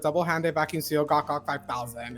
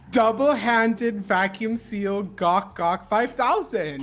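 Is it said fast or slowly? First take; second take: fast; slowly. First: It is said at normal, fast speed. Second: It is said more slowly.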